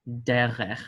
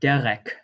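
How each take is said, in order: First: The word ends with a soft kh sound. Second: The word ends with a hard k sound. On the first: The speaker calls it right. "it will be pronounced as in the soft pronunciation" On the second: The speaker calls it wrong. "a soft pronunciation or a hard pronunciation"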